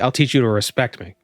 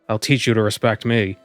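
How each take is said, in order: First: The stress is on respect. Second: The stress is on me.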